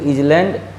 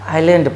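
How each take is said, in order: First: A z sound is heard before the l. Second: No s sound is heard before the l. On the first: The speaker calls it wrong. "इसको हम इजलैंड या आइसलैंड नहीं पढ़ के" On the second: The speaker calls it right. "आइलैंड पढ़ते हैं"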